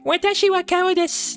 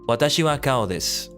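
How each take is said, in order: First: It is said in a put-on cute voice. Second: It is said in a plain, ordinary voice.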